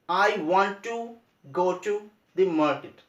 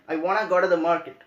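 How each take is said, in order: First: 'Want to' is said as two full words. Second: 'Want to' is blended into one short 'wanna'. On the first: "Instead of saying this" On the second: "you can say I wanna go to market"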